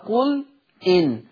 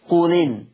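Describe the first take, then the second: First: The glottal stop is kept, with a break between words. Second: The glottal stop is dropped and the words run together.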